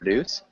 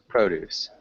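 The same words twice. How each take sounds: First: It is said with the verb pronunciation. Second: It is said with the noun pronunciation. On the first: It names the action of making something. "which is the verb" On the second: It names fruits and vegetables. "which is the noun"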